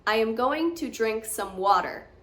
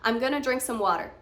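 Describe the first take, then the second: First: "Going to" is said fully and carefully. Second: "Going to" is reduced to "gonna".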